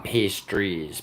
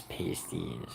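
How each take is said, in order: First: "pastries" said slowly with a clear r; drawn-out "pastries" to set it apart from "pasties"; pastries, the wrong word. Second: "pasties" with no r, trailing off softly; quiet "pasties", pay-stees; pasties, the right word. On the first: Streamer correcting his own word for chat, slow "pastries". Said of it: "I mean, not pastries". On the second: Streamer setting the right word against "pastries". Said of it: "not pastries, pasties". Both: Shown as a demonstration.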